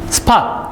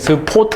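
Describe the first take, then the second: First: It is said with English-style pronunciation. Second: It is said with Japanese-style pronunciation. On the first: "영어식" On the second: "일본식 발음으로 와가지고"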